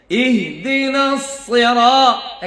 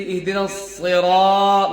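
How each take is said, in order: First: Slow chanted ইহদিনাস Sira with a measured "raa"; sung, recite it evenly, holding Sira just one beat; sung, one-alif stretch. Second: Sira with the "raa" dragged too long, falling; ইহদিনাস said quickly, then an overstretched Sira; overlong stretch. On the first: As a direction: correct model chant of Sira. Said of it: "এক আলিফের টান পরিমাণটা". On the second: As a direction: show the mistake, pulling Sira out in a speaking pitch. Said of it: "লম্বা টান মারে". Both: Shown as a demonstration.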